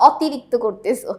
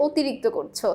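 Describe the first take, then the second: First: "অতিরিক্ত" starting on open aw, as "aw-tirikto"; wrong open-vowel pronunciation. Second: "অতিরিক্ত" starting on closed o, as "otirikto"; correct closed-vowel pronunciation. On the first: Teacher quoting what we don't say, open aw in "অতিরিক্ত". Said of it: "আমরা কিন্তু বলি না". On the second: Teacher showing students what we say, closed o in "অতিরিক্ত". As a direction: round the first vowel of "অতিরিক্ত" to ও. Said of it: "আমরা বলি". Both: Shown as a demonstration.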